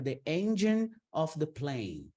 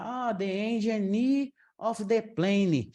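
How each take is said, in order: First: "engine" and "plane" end on the consonant, silent e; corrected pronunciation. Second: "engine" and "plane" said with a final vowel, "engini", "pleni"; slow, higher, mocking the added final vowel; wrong pronunciation demo. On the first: Teacher correcting herself, plain careful model. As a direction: say "engine" and "plane" cleanly, no trailing vowel. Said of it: "a gente trocou a palavra". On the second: Teacher mocking a student's mistake, slow and lifted. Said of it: "Não, a gente trocou a palavra". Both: Shown as a demonstration.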